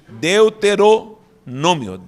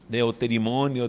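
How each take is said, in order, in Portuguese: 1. A palavra é dita como 'deutero' mais 'nômio'. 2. O meio é dito como 'terimo' antes de 'nio'.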